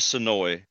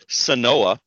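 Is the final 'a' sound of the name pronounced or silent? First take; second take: silent; pronounced. First: The name ends without a final 'a' sound. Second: The name ends with a pronounced 'a' sound. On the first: The speaker calls it right. "The A is silent" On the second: The speaker calls it wrong. "the way I've been pronouncing it for years, which clearly I'm probably wrong"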